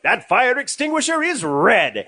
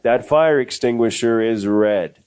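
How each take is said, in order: First: It is said expressively, with emotion. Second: It is said flatly, with no emotion.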